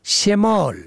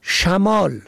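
First: شمال said "shemal"; کسره on first letter. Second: شمال said "shamal"; فتحه on first letter. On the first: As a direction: say شمال with a short e after sh. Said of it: "به کسر اول". (شمال با کسرهٔ شین: شِمال) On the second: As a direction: say شمال with a short a after sh. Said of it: "به فتح اول". (شمال با فتحهٔ شین: شَمال) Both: Shown as a demonstration.

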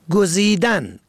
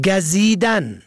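First: گزیدن said as gozidan, o first; damma on first letter. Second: گزیدن said as gazidan, a first; fatha on first letter. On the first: Teacher contrasting homographs, gozidan with damma. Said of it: "به ضم اول". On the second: Teacher contrasting homographs, gazidan with fatha. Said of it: "به فتح اول". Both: Shown as a demonstration.

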